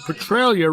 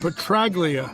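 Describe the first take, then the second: First: The G in the name is silent. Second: The G in the name is pronounced.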